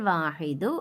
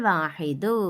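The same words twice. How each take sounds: Both takes have the same delivery.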